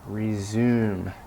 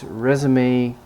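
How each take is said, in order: First: The final e is silent. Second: The final e is pronounced like ay. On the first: It is the verb meaning to continue. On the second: It is the document used to apply for jobs. "You need at least one accent mark to indicate that it's"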